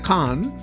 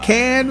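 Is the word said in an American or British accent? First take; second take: British; American. First: The word is said with a British vowel. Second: The word is said with an American vowel. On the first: Someone else said it. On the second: It is the speaker's own way.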